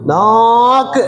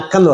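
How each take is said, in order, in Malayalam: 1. ആദ്യ സ്വരം ഒത്തിരി നീട്ടിയാണ് പറയുന്നത്. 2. ആദ്യ സ്വരം ചുരുക്കിയാണ് പറയുന്നത്. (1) "നാക്കിനെ ഒത്തിരി നീട്ടി" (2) "ഒട്ടും നിൽക്കാതെ പറയുന്നത്"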